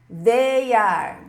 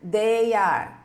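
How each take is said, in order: No difference in how they are said.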